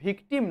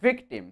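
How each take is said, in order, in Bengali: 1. প্রথম ধ্বনিটি ঠোঁটে দাঁত ছাড়া উচ্চারণ করা হয়। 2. প্রথম ধ্বনিটি ঠোঁটে দাঁত দিয়ে উচ্চারণ করা হয়। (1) "ভিকটিম নয়" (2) "উপরের দাঁত দিয়ে নিচের ঠোঁটটাকে কামড়াতে হবে"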